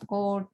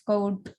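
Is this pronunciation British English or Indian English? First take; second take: Indian English; British English. First: It is said with an Indian English accent. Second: It is said with a British English accent. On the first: The speaker calls it wrong. "we pronounce coat" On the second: The speaker calls it right. "while it's coat"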